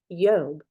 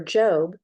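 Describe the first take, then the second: First: The name begins with a Y sound. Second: The name begins with a J sound. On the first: This is the original Hebrew form. "The J's basically revert to a, a Y sound" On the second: This is the modern familiar form. "it's a more modern word that we're used to"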